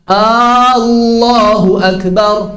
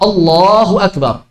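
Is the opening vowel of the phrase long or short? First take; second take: long; short. First: The opening vowel is drawn out long. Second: The opening vowel is short. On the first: It asks whether God is great. The speaker calls it wrong. "kalau hamzahnya dipanjangkan" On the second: It states that God is great. The speaker calls it right.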